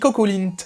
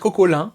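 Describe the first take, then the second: First: The name ends with a sounded t. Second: The name ends without a t sound. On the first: This is how the speaker says it. "moi je dis Cocolint" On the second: This is another accepted way to say it. "On peut dire Cocolin"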